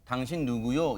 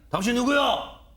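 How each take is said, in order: First: It is said with a plain, neutral intonation. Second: It is said with an imitated regional intonation. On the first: This is not how the man actually said it. The speaker calls it wrong. "이렇게 하지 않았을 거 아니에요" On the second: This is how the man probably said it. The speaker calls it right. "저런 비슷한 억양으로 말한 적이 있기 때문입니다"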